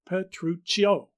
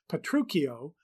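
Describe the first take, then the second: First: The middle consonant is a 'ch' sound. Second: The middle consonant is a 'k' sound. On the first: The speaker calls it right. "expected us to pronounce it with the C H as in English" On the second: The speaker calls it wrong. "the C H is pronounced like a K"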